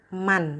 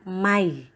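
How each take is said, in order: First: The word ends with a clear n sound. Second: The n merges into the following y sound. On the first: The speaker calls it wrong. "bacanya bukan man" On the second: The speaker calls it right. "melainkan mai. Masuk ke dalam huruf berikutnya"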